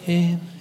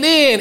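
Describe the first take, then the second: First: The word is said quietly and meekly. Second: The word is said loudly and eagerly. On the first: The speaker is only timidly volunteering. The speaker calls it wrong. "nem így zajlottak. Én. Ilyen kis szolídan" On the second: The speaker is enthusiastically volunteering. The speaker calls it right. "hanem úgy, hogy én"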